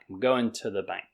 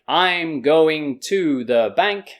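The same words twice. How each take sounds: First: The word to has a reduced schwa vowel. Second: The word to has a full vowel.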